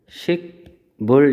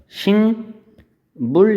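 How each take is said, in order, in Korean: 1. 첫 음절은 k 소리로 끝나요. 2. 첫 음절은 ng 소리로 끝나요. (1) "원래 표기는 식물 이렇게 하고" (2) "식물 이렇게 발음이 나요"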